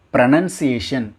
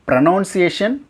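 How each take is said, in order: First: Pronunciation as pro-NUN-see-ay-shun; slow pronunciation with a nun sound; right pronunciation demo. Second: Pronunciation as pro-NOUN-see-ay-shun; higher Pronunciation with a noun sound; wrong pronunciation demo. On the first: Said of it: "pronunciation right". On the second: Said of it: "Pronunciation தப்பு". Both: Shown as a demonstration.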